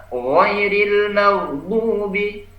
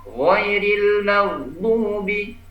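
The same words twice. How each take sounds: No difference in how they are said.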